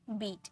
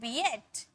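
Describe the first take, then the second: First: The vowel is one long 'ee' sound. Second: The vowel splits into 'ee' then 'a'. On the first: The speaker calls it right. "ई ए को किस में पढ़ते हैं, ई में पढ़ते हैं" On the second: The speaker calls it wrong. "ए को ए में साउंड निकालते हैं क्या"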